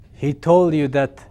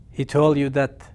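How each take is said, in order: Both takes have the same delivery.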